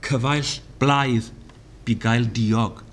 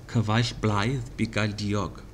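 First: "Cyfaill blaidd" slow, falling on "blaidd"; slow Welsh recitation. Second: "Cyfaill blaidd bu gael diog" softer, falling; softer Welsh repeat. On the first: Teacher reciting Welsh proverb slowly. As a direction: intone "Cyfaill blaidd bu gael diog" slowly. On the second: Teacher repeating Welsh proverb softly. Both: Shown as a demonstration. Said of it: "here are five examples".

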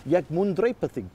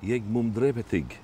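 First: Put-on "Ég mun drepa þig" in Old Norse, said in a ringing voice, drepa stressed; Old Norse line. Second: Put-on "Ég mun drepa þig" in Old Norse, said slowly and softly by a learner; careful, hesitant "Ég mun drepa þig" in Old Norse; learner's try. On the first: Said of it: "in, in Viking, that would be". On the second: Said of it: "Oh, I'd love to say that". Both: Shown as a demonstration.

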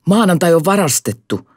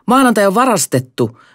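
First: High squealing alarm. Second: Even higher, louder squeal. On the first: Kukkapää squealing the alarm to Kiemurakorva. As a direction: shriek the news in a panic. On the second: Kukkapää repeating the alarm, more frantic still. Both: Acted. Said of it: "kiljui kukkapää".

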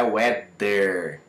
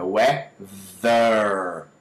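First: "weather" said as "wedder"; hard D in the middle of "weather"; slow wrong "weather", D for TH; mispronounced D. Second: Very slow "weather" with a long buzz; drawn-out model "weather", buzzing in the middle; correct vibrating TH. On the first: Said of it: "Não é". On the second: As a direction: split "weather" and hold the voiced TH. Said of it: "Olha como é que vibra". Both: Shown as a demonstration.

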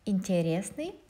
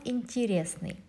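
First: Интересный with a full E after the T; spelling pronunciation. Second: Интересный said "intirésny", E after T turned to i; reduced vowel. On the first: Teacher showing the written e, интересный with unreduced E. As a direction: sound out интересный as written, "in-te-RES-ny". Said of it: "There is e written here". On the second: Teacher showing what we pronounce, интересный with reduced E. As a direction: say интересный with "ti", stress on RES. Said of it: "but we pronounce". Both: Shown as a demonstration.

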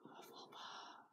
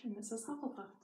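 First: Breathy hushed whisper of Hufflepuff; soft reverent whisper. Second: Said in the usual way. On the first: Shown as a demonstration. Whispered echo of the house name.

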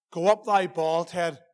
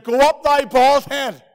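First: A lower, softer, slow sneer; quieter taunt. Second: Loud, slow jeering at the bald prophet; mocking taunt. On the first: Acted. Children mocking Elisha again, a softer lower jeer. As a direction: drop it down into a muttered jeer. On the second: Children mocking Elisha, a loud slow jeer. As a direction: taunt him loudly and slowly. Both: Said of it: "Forty-two children began to mock Elisha".

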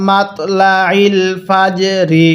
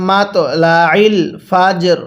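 First: মাতলাইল ফাজরি read slowly with final রি voiced, not stopped; continuing form. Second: ফাজর ending on a light র with no vowel, মাতলাইল with the আইন pressed in the throat; pausal stop form. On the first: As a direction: say ফাজরি with a light রি at the end. (না থেমে মাতলাইল ফাজরি পড়া) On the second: (ওয়াকফ করে মাতলাইল ফাজর পড়া) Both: Shown as a demonstration. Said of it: "ওয়াকফ করলে".

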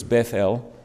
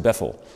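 First: "Bethel" as beth-EL, with a full final EL; "Bethel" with a full e in the last syllable; Hebrew pronunciation of Bethel. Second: "Bethel" as BETH-ul, stress up front; "Bethel" with a short, reduced ending; local pronunciation of Bethel. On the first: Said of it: "but in Hebrew it's Bethel". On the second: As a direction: say "Bethel" the Southern way, second syllable swallowed. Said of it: "down here it's pronounced Bethel". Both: Shown as a demonstration.

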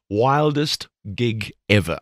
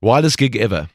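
First: Slow, deliberate repeat. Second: Said in the usual way. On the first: Shown as a demonstration. Host repeating the interview question for effect, slow and drawn out. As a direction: draw out WILDEST GIG EVER at half speed.

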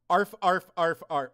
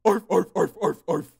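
First: Half-hearted barking arf; casual arf arf, not yet in character; first try at Goosebumps dog voice. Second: Loud barking arf in a cartoon dog voice; Goosebumps dog voice. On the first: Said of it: "Oh, I'm sorry, I didn't say it right". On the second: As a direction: bark it out like a TV monster dog. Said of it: "Goosebumps dog voice". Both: Shown as a demonstration.

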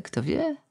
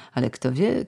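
First: Softer, higher musing; quiet wondering echo; wistful echo. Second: Said in the usual way. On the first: Acted. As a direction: let the question drift.

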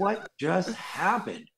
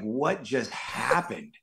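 First: Slow, higher, half-laughing disbelief. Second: Slow, dazed disbelief after a long shoot; stunned disbelief. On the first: Actor retelling the ride home to hosts, slow laughing disbelief. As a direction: laugh at how absurd it was. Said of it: "I was like". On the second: Actor retelling the ride home, slow stunned disbelief. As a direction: drag it out, still in shock. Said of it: "And I was just like". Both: Retold or imitated.

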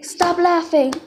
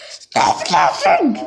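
First: Said in the usual way. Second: Much lower, slow growling monster voice; deep monster voice. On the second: Pretend.

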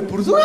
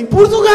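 First: High European Portuguese impression, not shouted; comic European Portuguese, pitched up; mock European Portuguese. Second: Loud, very high European Portuguese impression; exasperated comic European Portuguese, pitched right up; emphatic mock European Portuguese. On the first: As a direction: answer in a put-on Portugal accent. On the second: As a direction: blast it out in a put-on Portugal accent. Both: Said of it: "só entende se falar assim".

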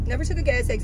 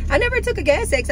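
First: Said in the usual way. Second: "never" pushed higher and hard; stress on never. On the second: Real, not acted. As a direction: lean on "never", it rises high. Stressing never having taken it.

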